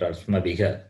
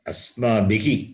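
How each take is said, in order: First: The final breath is echoed with an 'a' vowel. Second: The final breath is echoed with an 'i' vowel. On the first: The speaker calls it wrong. "Not asmabhiha" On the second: The speaker calls it right. "Visarga takes sound of the preceding vowel"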